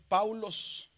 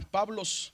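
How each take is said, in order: First: "Paulos" slowly with au, as written; spelled-out reading. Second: "Pablos" with b, not the au of the spelling; "Pablos" said as modern Greek, b sound; Greek pronunciation. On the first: Teacher reads the letters slowly: "Paulos" with au. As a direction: stretch "Paulos" out, au diphthong. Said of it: "Dice Paulos". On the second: Teacher models Greek reading: "Pablos" with b. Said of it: "se pronuncia como Pablos". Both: Shown as a demonstration.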